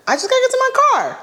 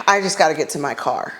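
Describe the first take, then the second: First: Much higher, fast desperate repeat of "I just gotta get to my car"; frantic high-pitched "I just gotta get to my car"; panicked squeal. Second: Said in the usual way. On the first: Retold or imitated. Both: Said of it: "Okay, Lord".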